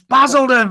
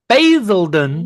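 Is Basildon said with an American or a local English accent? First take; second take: English; American. First: It is said with a local English accent. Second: It is said with an American accent. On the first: This is how the town's own people say it. The speaker calls it right. "It's Basildon, for God's sake" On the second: An automated system voiced by an outsider says it. The speaker calls it wrong. "they've employed a company from America to do their uh, voiceover"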